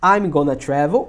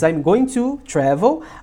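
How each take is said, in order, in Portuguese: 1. 'Going to' é reduzido para 'gonna'. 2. 'Going to' é pronunciado por extenso.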